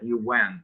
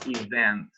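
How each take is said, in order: First: The middle consonant is a W sound. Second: The middle consonant is a V sound. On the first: The speaker calls it wrong. "you cannot pronounce like that. You went. That's a very different word" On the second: The speaker calls it right. "v is uh, when you uh, use your uh, lower lip, like event"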